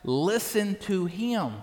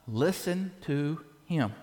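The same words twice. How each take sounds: First: Slow, each word set apart, "him" falling; emphasis on listen to him. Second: Slow and weighty, "Listen" drawn out and falling; emphasis on listen to him. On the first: Shown as a demonstration. Pastor repeating the verse to the congregation, slow deliberate stress. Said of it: "I put a little emphasis on that". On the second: Acted. Preacher reading God's command to congregation, slow weighty emphasis. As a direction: lean on "Listen" and let it land slowly. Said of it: "that's why I made an emphasis".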